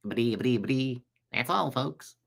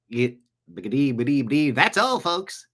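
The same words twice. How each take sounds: First: Softer, lightly voiced cartoon sign-off; understated imitation of a stuttering cartoon character. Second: Imitated Mel Blanc-style cartoon character; cartoon voice imitation. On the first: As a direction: stammer a cartoon farewell under your breath. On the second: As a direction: stammer into a cartoon farewell. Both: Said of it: "Mel Blanc did all those voices".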